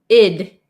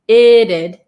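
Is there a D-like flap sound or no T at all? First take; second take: no T; flap. First: The T sound is dropped entirely. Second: The T is a flap sounding like D. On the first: "skip the T" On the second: "sounds like a D sound"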